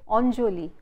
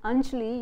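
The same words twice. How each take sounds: First: The first vowel is rounded, close to o. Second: The first vowel is an open, unrounded a. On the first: This is the Bengali way of saying the name. "it becomes a Bengali sound because your lips are rounded" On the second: This is the northern Indian way of saying the name. "same name of a person in Hindi with the position of lips in a neutral position"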